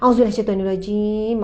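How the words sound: It is said hurriedly and absent-mindedly. The words are recited without attention. The speaker calls it wrong. "jangan sebut dalam keadaan lalai"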